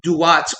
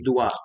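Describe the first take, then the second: First: The word ends with an audible T sound. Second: The word ends without any T sound.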